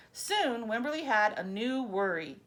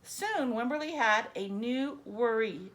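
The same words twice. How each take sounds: The two takes are said the same way.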